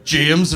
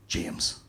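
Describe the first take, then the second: First: Loud, blunt answer; acted raised-voice reply; name called out. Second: Very soft, low reveal; acted understated, near-whispered answer; hushed big moment. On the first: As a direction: give the name at counter volume. Same name, in local version. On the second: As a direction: say the name quietly, with weight. Advert's big moment after throat clearing.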